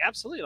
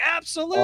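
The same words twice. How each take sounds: First: Said in the usual way. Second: Absolutely, pitched much higher with a rise; eager yes. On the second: Retold or imitated. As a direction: beam as you agree, lifting up. Actor smiles, shakes hand.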